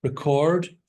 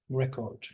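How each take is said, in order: First: Record stressed on the second syllable; Record with the weight on CORD; verb stress. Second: Record stressed on the first syllable; record with a strong REC and weak ending; noun stress. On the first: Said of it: "spelt identically but pronounced differently". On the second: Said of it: "That's the noun". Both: Shown as a demonstration.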